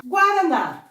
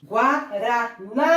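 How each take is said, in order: First: Said in the usual way. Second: "Guaraná" slowly split GUA, RA, NÁ; syllables, last stressed. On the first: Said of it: "Vamos continuar". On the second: Shown as a demonstration. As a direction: separate syllables of "Guaraná", rising onto a long NÁ. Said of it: "Oxítona terminada em A".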